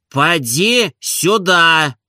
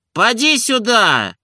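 First: Very slow, each word spaced out; deliberate and insistent. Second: High, slow summons; calling out. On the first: Oblomov repeating the order, slow and insistent. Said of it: "расстановисто и настойчиво произнёс". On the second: Oblomov calling Zakhar from the hall, high summons. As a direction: call him in from the hall. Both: A narrator's reading.

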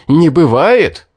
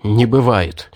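First: Much louder, furious repeat; choking with rage. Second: Choking with rage. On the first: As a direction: explode on the second one. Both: A narrator's reading. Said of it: "задохнулся от ярости".

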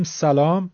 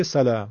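First: Said in the usual way. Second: "سلام" in an Arabic accent; Arabic pronunciation. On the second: Shown as a demonstration. Teacher shows how Arabs greet, Arabic accent. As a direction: say "سلام" as Arabs do, same plain s. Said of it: "عرب هم همین رو میگه".

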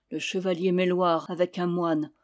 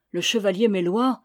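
First: Understated cry of alarm, falling ending; narrated report from a winded messenger; mild breathless cry. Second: Louder echo with rising ending; taken aback, voice lifting at the end; startled repeat. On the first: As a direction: announce it as a lightly voiced cry. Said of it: "cria Julien le priol essoufflé". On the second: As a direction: repeat the name as an astonished question. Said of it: "répéta Morvert". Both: A narrator's reading.

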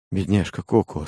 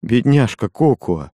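First: Said in the usual way. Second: Repeated slower, tender and more emphatic. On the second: A narrator's reading. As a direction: say it again, slowly, with pity. (нежно и медленно, с жалостью) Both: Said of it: "повторил он снова".

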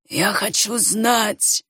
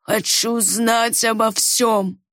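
First: Firm conviction. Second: Firm insistence. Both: A narrator's reading. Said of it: "убеждённо молвил Хобарт".

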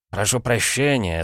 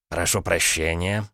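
First: Said in the usual way. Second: Slow, polite beg-your-pardon with a gentle rise; courteous and unhurried, a touch ironic; polite interruption. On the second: Acted. Son-in-law politely cuts in, slow and courteous. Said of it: "вежливо перебил его зять".

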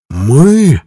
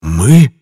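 First: Higher, louder swelling indignant question; voice gaining strength. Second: Short, indignant mock hiss, voiced. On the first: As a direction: let the word swell in outrage. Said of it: "голос его набирал силу". (голос набирает силу, громче и выше) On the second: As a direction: hiss the question with a sudden push. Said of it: "прошипел он". (возмущённое шипение в голос) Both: A narrator's reading.

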